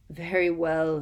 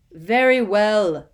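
First: Louder irritated snap; snapped. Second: Slow, much louder, grudging; cold fury. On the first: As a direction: snap it impatiently. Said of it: "Snape snapped". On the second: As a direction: spit it out in cold anger. Snape gives in furiously. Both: Acted.

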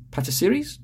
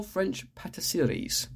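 First: PATISSERIES with a high rising end; questioning PATISSERIES. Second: Said in the usual way. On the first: Shown as a demonstration. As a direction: query the word PATISSERIES, lifting the pitch at the end. Repeats French word, unsure of it.

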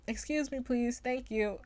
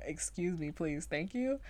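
First: Lightly voiced prim politeness, pitched high; a dainty, over-polite little request; prim and proper. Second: A hint of politeness, mostly her own voice; lightly proper. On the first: Friend imitates her prim sleep-talk, mock proper and high. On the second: She repeats her own sleep-talk, only lightly proper. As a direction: repeat the polite phrase almost plainly. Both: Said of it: "the most proper thing you could ever say".

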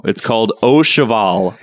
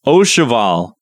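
First: Au Cheval said oh sheh-VAHL; French pronunciation. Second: Au Cheval said oh shuh-VAL, ending on a fall; French pronunciation. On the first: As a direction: Au Cheval as oh shuh-val, French-style. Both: Shown as a demonstration. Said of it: "it's a French word".

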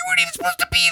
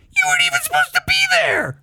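First: Very high, fast squeaky line; tiny piercing falsetto; high-pitched voice. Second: Very high, fast falsetto squeak; tiny piercing falsetto, quick; high-pitched voice. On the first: Retold or imitated. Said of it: "in this really high-pitched voice". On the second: Shown as a demonstration. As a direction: push it up into a squeal. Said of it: "Like, is hi-, higher than that".

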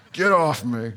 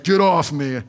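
First: Said in the usual way. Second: Laughing brush-off. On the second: Retold or imitated. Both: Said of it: "And I'm like".

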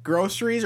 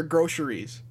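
First: "groceries" said as gross-er-ies; "s" sound. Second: "groceries" said as grosh-er-ies; "sh" sound. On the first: Asking which one is right, "groceries" with an "s". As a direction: keep a clean "s" in the middle of "groceries". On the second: Asking which one is right, "groceries" with a "sh". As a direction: turn the middle of "groceries" into "sh". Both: Shown as a demonstration. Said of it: "Is it groceries or groceries?".

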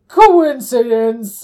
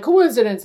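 First: Loud, long drawn-out Manfred quote; mock exclamation. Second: Short, louder quoted interjection; brief mock exclamation. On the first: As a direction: stretch the word out loudly. Acted retelling of Manfred's outburst. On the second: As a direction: toss it out quickly and loudly. Quicker retake of Manfred's outburst.

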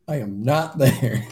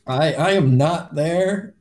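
First: Slow denial falling at the end, with a laugh; amused disavowal. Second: Slow, louder, higher-pitched denial; emphatic disavowal. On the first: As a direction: repeat it slowly, a laugh breaking in. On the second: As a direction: draw out each word, loudly disowning it. Player disowning the grave robbing. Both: Acted.

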